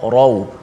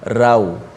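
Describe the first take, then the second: First: The r sound is thick and heavy. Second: The r sound is thin and light. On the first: The speaker calls it right. "Kita baca taharrau, ra rau" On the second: The speaker calls it wrong. "bukan rau"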